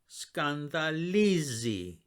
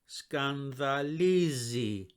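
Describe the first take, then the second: No difference in how they are said.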